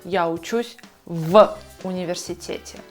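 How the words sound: A pause separates the preposition from the noun. The speaker calls it wrong.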